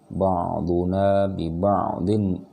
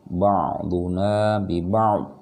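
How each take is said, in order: First: The final n sound is pronounced before continuing. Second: The final n sound is dropped at the stop. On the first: The reader continues into the next words. "kalau dia mau disambung di sini baru tanwinnya hidup lagi" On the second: The reader stops here. "kalau dia mau berhenti di sini tanwin tetap tidak tidak dibaca"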